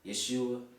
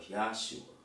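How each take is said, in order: First: The first vowel sounds like 'eh'. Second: The first vowel sounds like 'ah'. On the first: "Is it Y E S H U A" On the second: "Y A H S H U A"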